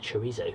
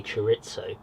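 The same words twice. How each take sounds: First: Chorizo as chuh-REE-zo, soft; chorizo with Z sound. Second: Chorizo as chuh-RIT-so, softer; chorizo with TS sound. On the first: Wondering if it is otherwise, chorizo as chuh-REE-zo. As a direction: say chorizo with a long EE and Z. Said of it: "but is it chorizo". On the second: Telling viewers his usual way, chorizo as chuh-RIT-so. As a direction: say chorizo with "ts" in the middle. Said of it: "I think I usually say". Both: Shown as a demonstration.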